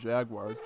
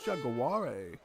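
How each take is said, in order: First: It is said in plain English. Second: It is said in a mock French accent.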